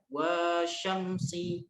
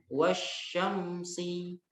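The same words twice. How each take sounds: First: The vowel after the w is drawn out long. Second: The vowel after the w is kept short. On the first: The speaker calls it wrong. "dibacanya bukan wasyamsi, bukan" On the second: The speaker calls it right. "Tapi langsung wasyamsi"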